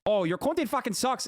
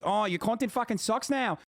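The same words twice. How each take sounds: First: High-pitched, embarrassingly poor Australian impression; mock them in a badly faked Australian accent; botched Aussie accent, pitched way up. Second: High, mocking, passable Australian accent; slightly clumsy Australian impression, pitched up; attempted Australian accent. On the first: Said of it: "was that supposed to be an Australian accent". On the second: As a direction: mimic a whiner in a rough Aussie accent. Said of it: "slightly better attempt at an Australian accent".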